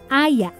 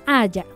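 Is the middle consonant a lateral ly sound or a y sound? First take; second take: y sound; lateral. First: The middle consonant is a plain y sound. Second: The middle consonant is a lateral ly sound. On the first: "con yeísmo" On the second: "sin yeísmo"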